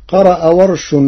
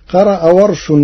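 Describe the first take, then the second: No difference in how they are said.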